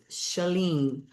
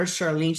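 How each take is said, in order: First: "Shalene" without any R; correct pronunciation. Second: "Charlene" with the R sounded; wrong pronunciation. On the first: Streamer modelling her friend's name for Curtis, R-less pronunciation. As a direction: say "Shalene" as sha-LEEN, R left out. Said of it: "No R". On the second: Streamer warning Curtis off the wrong name, R pronounced. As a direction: say "Charlene" as shar-LEEN, R included. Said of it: "Don't call her Charlene". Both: Shown as a demonstration.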